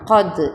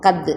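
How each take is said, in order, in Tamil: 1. d எதிரொலிக்கும் துள்ளலுடன் சொல்லப்படுகிறது. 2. d சாதாரணமாக, துள்ளல் இல்லாமல் சொல்லப்படுகிறது. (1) "கது அப்படின்னு சொல்லணும்" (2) "கது அப்படின்னு சொல்லாமல்"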